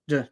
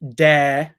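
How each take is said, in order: First: The syllable has a short, lazy schwa vowel. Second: The syllable has a full, clear vowel. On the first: The speaker calls it right. "schwa sound is lazy. Just d" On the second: The speaker calls it wrong. "It's not da"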